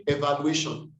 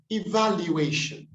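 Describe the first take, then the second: First: Evaluation opening on a full 'eh'; common mispronunciation. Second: Evaluation with 'ih' start and 'yoo' glide; corrected pronunciation. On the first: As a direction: say evaluation as eh-va-lu-AY-shun. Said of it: "we say". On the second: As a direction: model evaluation as ih-VAL-yoo-AY-shun. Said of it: "we say evaluation". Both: Shown as a demonstration.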